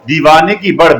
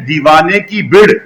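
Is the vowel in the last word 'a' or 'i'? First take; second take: a; i. First: The last word has an 'a' vowel. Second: The last word has an 'i' vowel. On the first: The speaker calls it right. "बल्कि बड़ है।" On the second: The speaker calls it wrong. "इसको लोग कहते हैं दीवाने की बिड़। ये बिड़ नहीं है"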